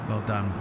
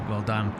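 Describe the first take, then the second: No difference in how they are said.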